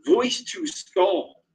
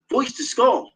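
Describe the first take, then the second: First: "voice to skull" dragged out slow and high; slow emphatic insistence. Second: Said in the usual way. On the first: Real, not acted. Insisting to viewers it was real, slow and emphatic. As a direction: stretch out "voice to skull" so it lands.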